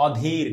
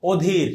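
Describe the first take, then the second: First: "অধীর" lower and softer, with open aw at the start; non-standard "অধীর" with wide first vowel; wrong pronunciation demo. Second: "অধীর" opening on a rounded o; teacher's model "অধীর" with closed o; standard pronunciation demo. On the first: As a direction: say "অধীর" as awdhir, to reject it. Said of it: "না". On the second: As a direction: say "অধীর" as odhir. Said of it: "general একটা উচ্চারণ আছে ওইটা করবা". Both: Shown as a demonstration.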